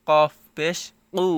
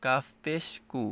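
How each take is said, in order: First: Heavy back k in কু; with a push. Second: কাফ and কু with a light ordinary k; plain front k in কু; simple k. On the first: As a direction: push the k of কফ পেশ কু from the back of the throat. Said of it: "একটু ধাক্কা খাচ্ছে". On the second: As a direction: say কাফ পেশ কু softly, no push. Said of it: "আর এটা simple". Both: Shown as a demonstration.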